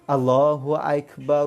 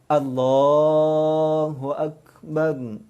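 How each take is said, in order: First: Akbar starts with a sound like 'aik'. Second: Akbar starts with a plain 'ak' sound. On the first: The speaker calls it wrong. "dari sudut sebutannya salah ... Aik jadinya" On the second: The speaker calls it right. "Jadi sebut betul"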